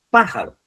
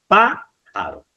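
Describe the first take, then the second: First: Said in the usual way. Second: "pájaro" split slowly as PÁ... jaro, PÁ high; stress on first syllable. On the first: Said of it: "Dice así". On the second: Shown as a demonstration. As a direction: draw out and raise the PÁ in "pájaro", pause, then "jaro". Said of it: "Fijaros en cuál está".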